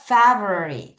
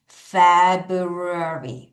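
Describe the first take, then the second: First: The word is said at a fast pace. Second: The word is said at a slow pace.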